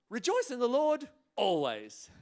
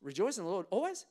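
First: High, loud declaration falling on "always"; quoting scripture. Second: "always" rising as a question; doubting question. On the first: Shown as a demonstration. Preacher quoting a verse to church, declaimed with falling "always". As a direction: proclaim it through to a firm "always". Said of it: "a little bit like quoting scripture". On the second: Acted. Churchgoer questioning the verse, puzzled rise on "always". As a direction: query "always" with a lift at the end. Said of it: "starting to question it".

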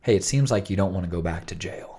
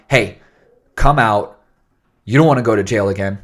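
First: Calm, non-authoritative negotiator; easy, understated talk-down; low FM DJ voice. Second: Loud, firm order; forceful, louder negotiator demand; authoritative. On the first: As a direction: soothe them like a radio DJ. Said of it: "No, it's very different". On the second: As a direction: command them like police at the door. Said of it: "less authoritative, not like". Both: Acted.

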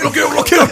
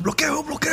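First: Much higher and louder, bloqueo blared mechanically; louder mock-robot bloqueo. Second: Much higher robotic repetition of bloqueo; higher mock-robot bloqueo. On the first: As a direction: blast bloqueo like a jammed robot alarm. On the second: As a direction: squeak bloqueo like a blocked machine. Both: Trainer mocked as robot.

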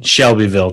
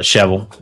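First: Said in the usual way. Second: "Shevel" squeezed into two syllables; local pronunciation. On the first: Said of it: "people from there call it Shevel". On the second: Shown as a demonstration. Telling listeners how locals name the town, local pronunciation. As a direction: say "Shevel" as locals do, dropping the middle of Shelbyville. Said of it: "the people from there call it Shevel".

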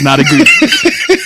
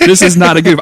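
First: Laughing. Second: Insistent. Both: Real, not acted. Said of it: "I am genuinely excited about it".

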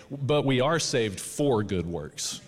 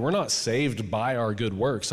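First: Slow, deliberate weight on "for"; measured affirmation, "for" picked out; stress on FOR. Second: Slow, deliberate weight on "by"; measured denial, "by" picked out; stress on BY. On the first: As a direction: lean on "for" as the correction. Contrasts for with by. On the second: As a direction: lean on "by" to rule it out. Contrasts by with for. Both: Real, not acted.

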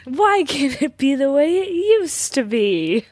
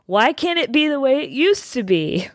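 First: High, slow dramatic plea; shouting capitalized words. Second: Shouting capitalized words. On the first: Shown as a demonstration. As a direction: wail it like a heartbroken spouse. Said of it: "Can you say it again?". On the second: Retold or imitated. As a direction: read it like an all-caps telegram. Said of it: "telegram saying in all caps".

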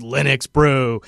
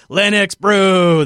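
First: Said in the usual way. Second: Slow, drawn-out hype reveal; excited announcement. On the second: Shown as a demonstration. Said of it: "a thing called Linux Brew".

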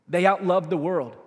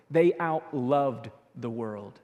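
First: Said in the usual way. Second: "They outloved the world" drawn out slowly, lower; slow emphasis. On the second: Shown as a demonstration. Pastor letting the key line sink in, slow and low.

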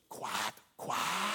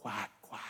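First: Breathy whispered quack, quack. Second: Hushed sly quack, quack; whispered quack. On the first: Sister whispering to her brother, sly taunting whisper. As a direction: lean in and whisper it slyly. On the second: Sister teasing Johnny at grandma's, soft whisper. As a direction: breathe it as a secret threat. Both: Acted. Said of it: "she leans over and whispers".

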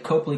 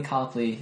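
First: Copley said as COPE-lee; wrong surname pronunciation. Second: Copley said as COP-lee; correct surname pronunciation. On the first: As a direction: give Copley a long O, like cope. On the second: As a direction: give Copley an open O, like cop. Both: Shown as a demonstration. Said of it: "it's not a big deal".

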